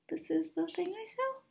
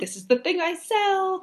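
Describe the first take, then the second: First: The voice rises at the end, like a question. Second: The voice falls at the end, like a statement. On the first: The speaker doubts what they offer. The speaker calls it wrong. "everything ends in question marks" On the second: The speaker is confident in what they offer. The speaker calls it right. "instead of saying it in that way"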